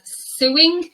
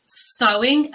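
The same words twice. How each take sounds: First: "suing" said with an oo vowel, SOO-ing; common mispronunciation. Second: "sewing" said with an oh vowel, SOH-ing; correct pronunciation. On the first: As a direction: say "suing" like taking someone to court. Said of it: "often mispronounced as". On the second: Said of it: "It's pronounced". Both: Shown as a demonstration.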